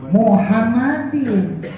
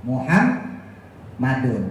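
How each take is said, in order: First: Slow "Muhammadin" ending in -din; slow demo. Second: Slow, soft "Muhammadun"; slow demo. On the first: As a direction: stretch out "Muhammadin" with final in. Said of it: "kemasukan bi jadinya apa". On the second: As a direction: drawl the -dun ending. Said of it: "kalau kita bacakan". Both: Shown as a demonstration.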